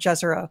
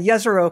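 First: The name is said the common American way. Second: The name is said the original, non-American way. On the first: This is how most American scientists say it. "most American scientists are going to go ahead and pronounce it Jezero" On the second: This is the technically correct pronunciation. "Technically, it's a Jezero crater"

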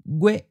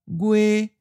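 First: The pitch is high and cut off abruptly. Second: The pitch stays level and high. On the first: This is the standard form used in the lesson. "we'll just stick with the high stop" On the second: This is how it sounds in some other regions. "In other regions, it may sound like a high flat"

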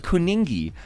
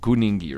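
First: The word begins with a hard K sound. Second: The word begins with a G sound. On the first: The word is read as it is spelled. The speaker calls it wrong. "If people who don't speak isiZulu like me read it, we go, oh, Kuningi" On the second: The word is said as native speakers say it. The speaker calls it right. "yes, it's K-U, but you pronounce it G-U"

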